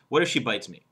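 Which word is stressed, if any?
none. No word carries any special stress. The speaker calls it wrong. "No emphasis on any word"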